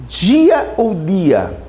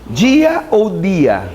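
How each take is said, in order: The two takes are said the same way.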